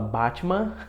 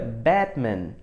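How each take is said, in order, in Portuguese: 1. É pronunciado do jeito brasileiro em português. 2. É pronunciado do jeito inglês. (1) "A gente fala Batman" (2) "Só que o correto é Batman"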